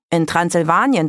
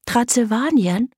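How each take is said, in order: First: Said in the usual way. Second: Higher, rising incredulous question on "Transsilvanien"; "Transsilvanien" echoed high in surprise; puzzled. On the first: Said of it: "erklärte Daka". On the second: A narrator's reading. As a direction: repeat "Transsilvanien" as a wondering question. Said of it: "wunderte sich Greta".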